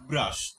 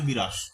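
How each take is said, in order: First: The first two consonants are said together. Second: A vowel is inserted between the first consonants. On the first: This is the older form. "এটা আমরা কিন্তু আধুনিক যুগে ব্যবহার করেছি" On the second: This is the common form used today. "বর্তমানে প্রচলিত ভাবে কি বলি"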